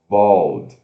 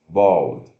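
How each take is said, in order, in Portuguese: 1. A vogal soa como o 'o' em bold. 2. A vogal soa como o 'o' em bold.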